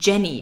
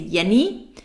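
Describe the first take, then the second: First: The J is said like English dj. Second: The J is said like a y sound. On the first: The speaker calls it right. "you say Jenny" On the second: The speaker calls it wrong. "you don't say Jenny"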